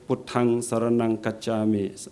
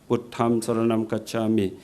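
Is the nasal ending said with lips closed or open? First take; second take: open; closed. First: The nasal endings are said with open lips. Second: The nasal endings are said with closed lips. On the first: This is the newer group's way. "it's not right to, to pronounce with the closed mouth" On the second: This is the older way influenced by Sanskrit. "they use the Nikahit in closing mouth"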